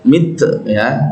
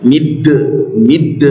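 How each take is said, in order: First: Mid ending in a puffed T; wrong breathed ending. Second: Mid with the D bounced into a short echo; qalqalah. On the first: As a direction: show the mistaken mid, like mit with breath. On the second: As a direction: release the D of mid with a voiced bounce. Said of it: "kalau dia sukun qalqalah". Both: Shown as a demonstration.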